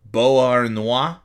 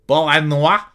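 First: Said in the usual way. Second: Loud, raised, badly faked French accent; terrible French accent. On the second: Podcaster greets listeners' town, hammed-up terrible French accent. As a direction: put on a bad French accent, rising at the end. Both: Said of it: "That's a terrible accent".

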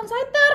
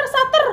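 First: "Shutter" said as "sai-ter", with an ai sound; the wrong take, "Shutter" as "saiter"; wrong pronunciation. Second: "Shutter" said as "sa-ter", with a short a; the right take, "Shutter" with a short a; corrected pronunciation. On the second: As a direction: say "Shutter" as "satter" to fix it. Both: Shown as a demonstration. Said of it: "Bukan Shutter".

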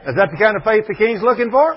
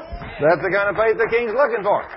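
First: Asked loud with a rising end; rising question. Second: Falling, settled statement; firm answer. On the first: Preacher asks the congregation, loud rising question. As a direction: put it to the crowd as a loud question. Rhetorical question then answer. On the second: Preacher answers his own question, firm falling statement. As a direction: answer it yourself, landing hard on looking. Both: Acted.

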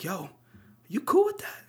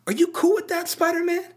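First: Miles Morales. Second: High, squeaky-pitched imitation of a challenge; mock-earnest high-pitched appeal; Miles Morales. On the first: Retold or imitated. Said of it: "look at ourselves like Miles and just be like". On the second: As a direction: put the question way up high. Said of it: "he has this moment where he".

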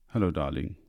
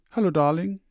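First: Low, plain husband's answer; husband's reply. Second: High, bright-voiced wife calling hello; wife's greeting. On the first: Husband answering his wife, lower and plain. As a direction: answer her flatly as the tired husband. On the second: Wife greeting her husband home, high and loud. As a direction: greet him sweetly as the loving wife. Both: A narrator's reading.

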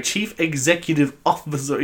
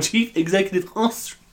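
First: Smug, self-assured reading; confidently naming the title correctly; mock confident. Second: The same confident tone, landing on Ostrich with a higher rising lilt; retelling his own slip, still sounding sure; mock blunder. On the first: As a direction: say it like you know you've got it right. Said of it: "I was so confident being like". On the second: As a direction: proudly say the wrong word. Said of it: "and I went".

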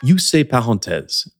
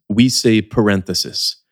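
First: Parenthèse said the French way, no th; French pronunciation. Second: Parenthesis said with English th; English pronunciation. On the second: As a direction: parenthesis with the tongue between the teeth. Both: Shown as a demonstration. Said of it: "pronunciation parenthèse".

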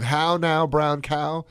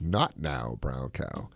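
First: "How now, brown cow" sung out high and loud; "How now, brown cow" bright and lifted; elocution drill. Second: "Not now, brown cow" sunk low and soft; "Not now, brown cow" falling away, dismissive; low and dropping. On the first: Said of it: "instead of". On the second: Host's vegan twist on the drill, low and dismissive. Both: Shown as a demonstration.

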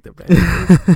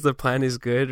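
First: Imitating a Canadian accent, high and loud; mock Canadian twang on the plan is good; little Canadian accent, hammed up. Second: Said in the usual way. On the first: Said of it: "like in this little Canadian accent". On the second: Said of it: "when he says the plan is good right here".

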